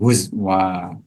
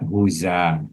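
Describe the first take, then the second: First: A w sound follows the z. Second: A vowel follows the z directly. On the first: "ibdalul hamzati wawan" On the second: "Nakunu harakatil hamzati"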